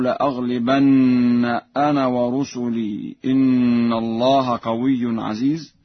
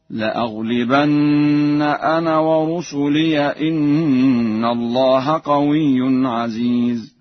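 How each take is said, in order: First: Said in the usual way. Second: "ورسلي" ending in -iya, joined on in slow chant; Warsh reading. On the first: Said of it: "يقرأ ورش بفتح الياء". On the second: Shown as a demonstration. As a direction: chant "ورسلي" as wa-rusuliya, running into the next word. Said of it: "بفتح الياء في حالة الوصل هكذا". (تلاوة متأنية "ورسلي" بفتح الياء وصلا)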